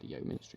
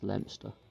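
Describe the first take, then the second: First: The name is said fully, as it is spelled. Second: The name is said in a shortened form. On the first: The speaker calls it wrong. "it's not pronounced Leominster" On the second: The speaker calls it right. "it's pronounced Leominster"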